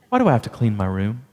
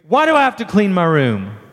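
First: It is asked sweetly and affectionately. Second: It is screamed angrily.

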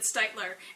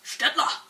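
First: The surname is given its American family pronunciation. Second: The surname is given its German pronunciation. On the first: This is how the family says the name. "even after I've told them it's Steitler" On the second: This is the name's original pronunciation. "this is how you really pronounce that last name"

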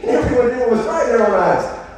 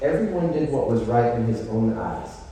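First: It is said in a cheerful, upbeat tone. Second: It is said in a sad, mournful tone. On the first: The situation is a good thing. The speaker calls it wrong. "Does that sound like a good thing? Like, yes" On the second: The situation is pitiful and lamentable. The speaker calls it right. "it is like a mournful, sad, pitiful state of affairs"

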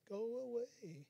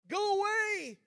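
First: It is said softly and mildly. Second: It is said loudly, like yelling.

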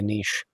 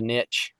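First: It is said with a British pronunciation. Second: It is said with an American pronunciation. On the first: "over in Britain, it's most likely a niche" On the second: "Over here in America, we'd call it a niche"

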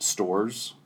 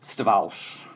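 First: The name sounds like the English word stores. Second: The name is said in its original Polish form. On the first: It is an anglicized family variant. "some will say just stores, like you're shopping at the stores" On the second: It is the original Polish form of the name. "the original pronunciation"

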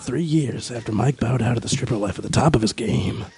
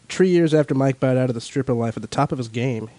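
First: It is read in a dramatic movie-trailer voice. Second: It is read in a plain normal voice.

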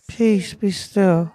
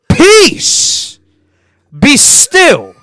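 First: It is said quietly and timidly. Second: It is shouted as a command.

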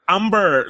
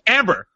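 First: The name is said with a Korean accent. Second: The name is said with an English accent.

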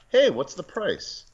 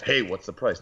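First: It sounds friendly and casual. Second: It sounds curt and negative.

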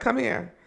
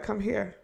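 First: It is said at a fairly loud volume. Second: It is said at a soft, quiet volume. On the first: The speaker calls it right. "A little loud, you know" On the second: The speaker calls it wrong. "I didn't say it like that"

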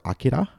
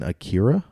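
First: The name is said in a Japanese-style way. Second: The name is said in an anglicized way.

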